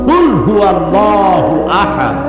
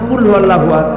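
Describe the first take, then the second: First: The first sound is a deep throat k. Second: The first sound is a plain front k. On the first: Say: God is one. The speaker calls it right. "বলো হে নবী আল্লাহ এক" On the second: Eat: God is one. The speaker calls it wrong. "তাহলে অর্থ হবে খাও, আল্লাহ এক"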